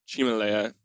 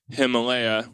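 First: The name is said in a Chinese-style pronunciation. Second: The name is said in an English-style pronunciation.

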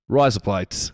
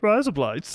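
First: It is said in an Australian accent. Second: It is said in a Kermit the Frog voice.

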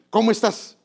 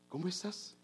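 First: It is said in a rude, harsh tone. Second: It is said in a warm, kind tone.

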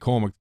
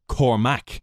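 First: One syllable carries more stress than the other. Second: Both syllables carry equal, heavy stress. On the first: This is how the name's owner says it. The speaker calls it right. "I say Cormac" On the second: This is how people outside Ireland say it. The speaker calls it wrong. "they all put emphasis on the two syllables"

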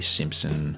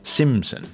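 First: A p sound is heard in the middle. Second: No p sound is heard in the middle. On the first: The speaker calls it wrong. "even though I keep pronouncing it with a P" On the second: The speaker calls it right. "There we go"

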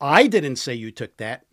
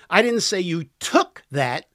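First: The stress is on the word 'I'. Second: The stress is on the word 'took'. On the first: Someone else said it. "Somebody else did" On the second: The listener borrowed it. "You borrowed it"

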